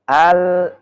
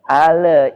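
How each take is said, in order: First: The word ends cleanly on the l. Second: A short vowel is added after the l. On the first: The speaker calls it right. "Harus al" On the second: The speaker calls it wrong. "itu enggak boleh"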